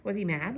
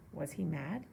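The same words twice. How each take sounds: First: Louder, eager friend's question; first take redone louder. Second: Said in the usual way. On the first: Shown as a demonstration. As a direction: ask it again with more push. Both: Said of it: "Remember, we got a little space there".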